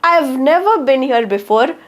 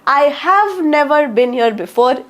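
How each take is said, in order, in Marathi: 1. 'I have' एका अक्षरात लहान करून म्हटले जाते. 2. 'I have' दोन पूर्ण शब्द म्हणून म्हटले जाते. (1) "I've never been here before सुद्धा बरोबर आहे" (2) "I have never been here before पण बरोबर आहे"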